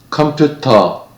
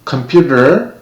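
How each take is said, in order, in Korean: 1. 한국어 외래어식 발음으로 해요. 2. 영어식 발음으로 해요. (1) "그 다음에는 한국에서 보통 사용하는 발음으로" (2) "처음에는 제가 쓰는 발음으로"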